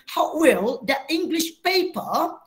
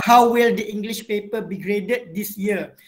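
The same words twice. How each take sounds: First: A light British accent, slow, rising on "paper"; a slow, light British take of "How will the English paper?"; British-sounding English. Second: Neutral international English accent, even and clear; international standard English. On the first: Teacher showing students the British-sounding version to avoid. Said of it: "Dia tak bunyi". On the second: Teacher demonstrating neutral international English pronunciation to students. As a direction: read it in a neutral international accent, no British or American. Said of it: "macam contoh saya bacakan".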